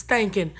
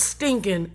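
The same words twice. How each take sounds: First: "stanking" with an A sound in place of the I; stanking, not stinking. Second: Said in the usual way. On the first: Shown as a demonstration. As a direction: say "stanking", swapping the short i for an a. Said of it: "it's not stinking. It's stanking". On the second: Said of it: "it's not stinking".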